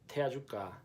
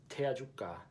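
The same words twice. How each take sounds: Both takes have the same delivery.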